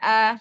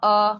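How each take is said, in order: First: The vowel is light and thin, like a. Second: The vowel is heavy and dark, like o. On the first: The speaker calls it right. "a tipis" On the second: The speaker calls it wrong. "ini tebal"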